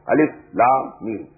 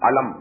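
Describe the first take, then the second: First: Each letter name is said separately. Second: The letters are joined into one short word. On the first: The speaker calls it right. "These are pronounced with separately" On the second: The speaker calls it wrong. "Not pronounced as alif lam mim alam, no"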